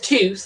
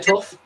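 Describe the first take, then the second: First: The word ends with a th sound. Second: The word ends with an f sound. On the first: This is how the other person says it. "she says tooth" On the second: This is how the speaker says it locally. "I say tough"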